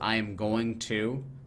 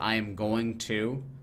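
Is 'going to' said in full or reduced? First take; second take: full; full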